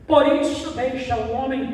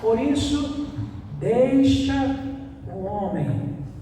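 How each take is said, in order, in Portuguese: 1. É falada em ritmo normal. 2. É falada muito devagar.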